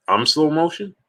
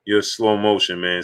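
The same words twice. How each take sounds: First: Incredulous echo. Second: Said in the usual way. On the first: Real, not acted. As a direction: repeat it back, offended and amazed. Echoing a viewer's insult back.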